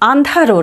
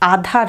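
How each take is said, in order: First: A full n sound follows the first vowel. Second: The first vowel is plain, not nasal. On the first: "আন্ধারও নয়" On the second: "আধার নয় কিন্তু"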